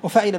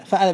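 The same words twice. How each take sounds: First: وفعل with a short i on the ع, "wa-fa'ila"; with kasra. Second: فعل with a short a on the ع, "fa'ala"; with fatha. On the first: Teacher sorting two past-tense patterns, kasra on ع. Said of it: "بالكسر". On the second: Teacher sorting two past-tense patterns, fatha on ع. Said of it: "بالفتح". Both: Shown as a demonstration.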